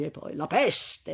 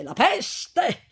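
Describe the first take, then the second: First: Said in the usual way. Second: "la peste" repeated, pitched high and punched; stress on peste. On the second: Acted. Priest to the couple, stressing "peste" high and loud. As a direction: hit "peste" hard and high the second time.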